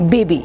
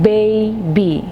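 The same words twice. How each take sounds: First: The stress is on the second syllable. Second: The stress is on the first syllable. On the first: The speaker calls it wrong. "I'm not saying it baby" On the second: The speaker calls it right. "the syllable stress is on the first part of the syllable bay"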